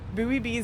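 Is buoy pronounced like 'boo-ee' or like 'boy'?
boo-ee. Buoy is said with two syllables, like boo-ee. "works better with the American pronunciation"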